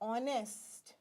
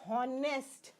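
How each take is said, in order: First: The word starts with no H sound. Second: The word starts with a pronounced H sound. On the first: The speaker calls it right. "We say" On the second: The speaker calls it wrong. "We do not say"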